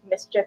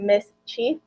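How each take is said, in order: First: It is said quickly as one word. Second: It is said as two separate words. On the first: "you say it together and say it quickly" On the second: "technically called ... Miss Chief"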